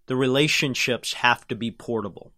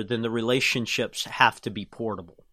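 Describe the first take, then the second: First: Slow and deliberate, every word clear; over enunciating. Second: Said in the usual way. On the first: Shown as a demonstration. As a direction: spell it out slowly for emphasis. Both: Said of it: "Let me say it slowly".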